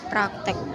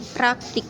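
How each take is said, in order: First: The last syllable has an e vowel. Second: The last syllable has an i vowel. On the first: The speaker calls it wrong. "bukan huruf E" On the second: The speaker calls it right. "yang benar itu menggunakan huruf I"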